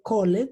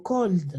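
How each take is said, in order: First: "called" in two syllables, "col-led"; wrong extra syllable. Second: "cold" as one syllable closing on D; no E, just "cold" with a D; final D sound. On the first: Teacher warns class what not to say, "called" as "col-led". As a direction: sound out the E in "called". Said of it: "Yo no puedo decir called". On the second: Teacher models past of call, "cold" ending in D. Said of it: "se van a pronunciar con una D al final". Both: Shown as a demonstration.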